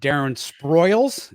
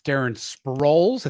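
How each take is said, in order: First: The surname has an 'oi' vowel like spoils. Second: The surname has an 'oh' vowel like holes. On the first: The speaker calls it wrong. "I think you pronounced it ... you combined Sproles and spoils together" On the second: The speaker calls it right.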